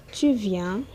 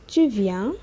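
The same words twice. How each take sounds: The two takes are said the same way.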